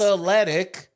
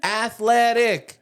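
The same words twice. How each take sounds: First: Athletic in three syllables, ath-let-ic, raised and louder; proper athletic. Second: Athletic stretched slowly, ath-uh-let-ic, higher and louder; mock four-syllable athletic. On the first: Host correcting girlfriend's athletic. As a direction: say athletic cleanly in three parts. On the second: Host mocking girlfriend's four-syllable athletic. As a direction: drag out athletic with an extra uh. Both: Shown as a demonstration. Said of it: "all four syllables in athletic".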